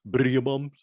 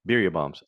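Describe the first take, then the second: First: "Birria" with a trilled R, pitched high; rolled R. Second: Said in the usual way. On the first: Shown as a demonstration. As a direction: roll the R hard in "Birria", playfully high. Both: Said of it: "supposed to roll your R's".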